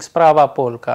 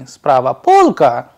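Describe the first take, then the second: First: The pitch stays flat to the end. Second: The pitch rises at the end. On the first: It is a plain statement. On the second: It is a question.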